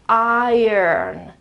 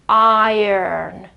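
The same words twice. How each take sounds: No difference in how they are said.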